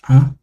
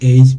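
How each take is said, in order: First: The letter is given its Kinyarwanda pronunciation. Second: The letter is given its English pronunciation. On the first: "but in Kinyarwanda, it's ah" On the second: "in English, it's usually a"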